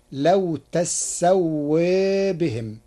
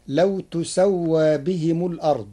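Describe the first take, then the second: First: تسوى read tassawā with fatha and doubled sin, tilted alif; تسوى as tassawē, slowly; Warsh reading, slow. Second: تسوى read tusawwā with damma on the ta; Hafs reading. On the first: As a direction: recite تسوى as tassawā with imala. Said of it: "بفتح التاء وتشديد السين". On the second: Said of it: "قرأ ورش كلمة تسوى بفتح التاء وتشديد السين". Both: Shown as a demonstration.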